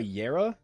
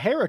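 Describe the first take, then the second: First: The word begins with a Y sound. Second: The word begins without a Y sound. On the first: "where you pronounce the J like a Y" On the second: "but a Hera could be good"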